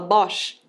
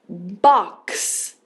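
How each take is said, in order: First: The word ends with an sh sound. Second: The word ends with a ks sound. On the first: The speaker calls it wrong. "você não fala Bosch?" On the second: The speaker calls it right. "A gente vai ter um som de K S"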